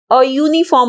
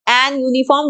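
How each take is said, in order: First: "अ यूनिफॉर्म" said with a short a before a yoo sound; correct article. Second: "एन यूनिफॉर्म" said with an before uniform as the mistake; wrong article. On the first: Teacher models "अ यूनिफॉर्म" as the correct usage. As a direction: say "अ यूनिफॉर्म" as the right form, a then uniform. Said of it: "बोलते हैं हम". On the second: Teacher shows students the wrong "एन यूनिफॉर्म". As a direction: say "एन यूनिफॉर्म" as the error to avoid. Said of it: "नहीं बोलते, वो बिल्कुल गलत होता है". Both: Shown as a demonstration.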